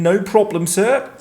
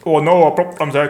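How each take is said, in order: First: Put-on Finnish accent. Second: Said in the usual way. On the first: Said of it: "that's how people from Finland talk". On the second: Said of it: "when I can't be bothered to do the accent".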